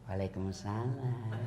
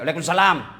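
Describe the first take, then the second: First: It is said in a soft, lilting voice. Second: It is said in a firm, curt voice.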